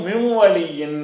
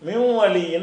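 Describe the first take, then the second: The two takes are said the same way.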